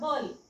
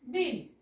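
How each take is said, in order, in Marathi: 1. या शब्दात 'a' स्वर आहे. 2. या शब्दात 'i' स्वर आहे. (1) "अ चा साऊंड करून बघूया" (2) "बिल उच्चार होईल का? तर नाही"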